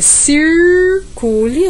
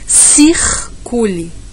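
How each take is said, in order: First: The r is curled with the tongue tip raised. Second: The r is dragged out as a throaty sound. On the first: "no interior paulista é circule, a gente faz uma U, sobe um pouquinho" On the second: "no Nordeste a gente fala circule, a gente dá uma arrastadinha"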